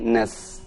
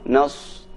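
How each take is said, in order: First: The s is thin, with lips not pushed forward. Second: The s is thick, with lips pushed forward. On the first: The speaker calls it right. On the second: The speaker calls it wrong. "jangan sampai dibaca monyong"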